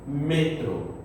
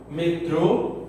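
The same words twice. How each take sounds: First: Metro with the stress on the first syllable, "ME-tro"; Spanish metro. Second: Metrô with the stress on the last syllable; Portuguese metrô. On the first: Teacher contrasting Portuguese and Spanish, Spanish pronunciation. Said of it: "em espanhol". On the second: Teacher contrasting Portuguese and Spanish, Portuguese pronunciation. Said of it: "em português". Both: Shown as a demonstration.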